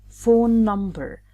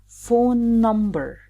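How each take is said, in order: No difference in how they are said.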